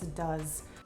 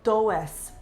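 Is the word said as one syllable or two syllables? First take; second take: one syllable; two syllables. First: The word is said as one short syllable. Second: The word is split into two separate syllables. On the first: The speaker calls it right. "It's does" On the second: The speaker calls it wrong. "That looks like do es"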